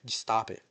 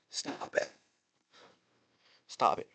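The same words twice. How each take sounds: First: Said in the usual way. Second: Whispered plea. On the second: Real, not acted. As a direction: breathe it out as a whisper. Repeating plea to WWE.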